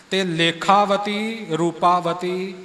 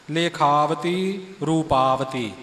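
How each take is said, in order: First: ਤੇ ਲੇਖਾਵਤੀ with a stray ਤੇ joined before; wrong pronunciation. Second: ਲੇਖਾਵਤੀ slow and clean, ਰੂਪਾਵਤੀ falling; correct pronunciation. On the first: Teacher demonstrates wrong reading ਤੇ ਲੇਖਾਵਤੀ. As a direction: say ਤੇ ਲੇਖਾਵਤੀ, ਰੂਪਾਵਤੀ slowly with the added ਤੇ. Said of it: "ਇਉਂ ਵੀ ਉਚਾਰਨ ਨਹੀਂ ਕਰਨਾ". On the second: Teacher demonstrates correct ਲੇਖਾਵਤੀ reading. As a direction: say ਲੇਖਾਵਤੀ, ਰੂਪਾਵਤੀ plainly without ਤੇ. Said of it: "ਇਹ ਉਚਾਰਨ ਹੈ ਜੀ". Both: Shown as a demonstration.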